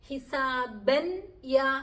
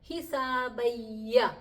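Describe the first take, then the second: First: The n is pronounced clearly before the y. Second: The n merges fully into y, no nasal. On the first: "എന്നുമല്ല പറയുന്നത്" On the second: "എന്നും അല്ല പറയുന്നത്"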